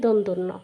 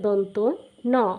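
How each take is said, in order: First: The name runs together as one merged word. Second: The name is said as two separate parts. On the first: The speaker calls it wrong. "এটাকে আমরা বলে থাকি দন্তন্য।" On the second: The speaker calls it right. "এর উচ্চারণ হচ্ছে দন্ত ন।"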